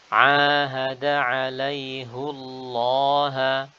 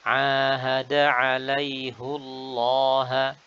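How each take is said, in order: The two takes are said the same way.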